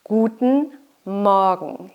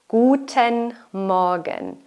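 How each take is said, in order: First: The -en ending is shortened without its vowel. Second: The -en ending is pronounced clearly and fully. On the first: This is how people say it in everyday life. "the en ending, becomes shorter. You don't really hear the e" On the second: This is the careful textbook form. "that's correct if you pronounce it very clearly"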